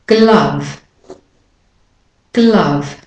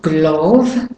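First: Glove said "gluv", falling; short "uh" vowel. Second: Glove mispronounced as "glawv"; wrong "o" vowel. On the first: Teacher models the correction twice, glove as "gluv". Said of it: "it's not glove, but". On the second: Teacher shows the mistake, glove as "glawv". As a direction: glove with a long rounded "o", rising. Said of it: "And it's not glove". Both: Shown as a demonstration.

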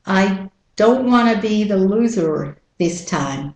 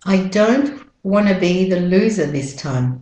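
First: American R at the end of "loser"; American-accent model sentence. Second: British-Australian "loser" without final R; British-Australian model sentence; British-Australian accent. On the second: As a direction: run "wanna be" together, British-Australian style. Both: Shown as a demonstration. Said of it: "And with the American accent".

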